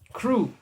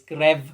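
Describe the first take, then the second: First: The name is said with an English pronunciation. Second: The name is said with a Czech pronunciation.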